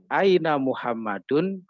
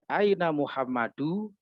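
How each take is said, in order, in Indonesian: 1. Nama itu berakhir dengan bunyi n tambahan di akhir. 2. Nama itu berakhir dengan vokal tanpa n di akhir. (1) "Karena Muhammad termasuk nama yang munsorif atau bertanwin" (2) "Tidak boleh"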